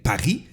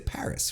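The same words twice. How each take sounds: First: It is said the French way, with a rolled R. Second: It is said the English way, with a smooth R. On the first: "you got the thing" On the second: "But in English, we'll say Paris"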